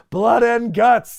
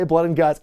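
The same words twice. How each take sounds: First: "Blood and guts" much higher, louder and slow, rising on "guts"; hammed-up catchphrase, big and slow; Regal's catchphrase. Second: Said in the usual way. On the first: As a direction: bellow "Blood and guts" like an announcer, drawn out. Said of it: "he says the thing". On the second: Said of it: "We can't say War Games".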